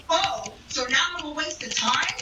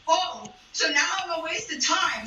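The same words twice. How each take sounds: First: Mock offended ex-boyfriend; stand-up retelling a breakup, hamming up the ex; back in character as the ex. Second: Said in the usual way. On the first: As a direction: play the wounded boyfriend, a touch higher. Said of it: "let me get back into character".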